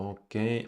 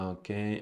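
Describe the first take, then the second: No difference in how they are said.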